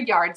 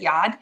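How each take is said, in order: First: The r is pronounced in a standard American accent. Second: The r is dropped in a Boston accent. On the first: "I didn't use my Boston accent" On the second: "my Boston accent and say yard"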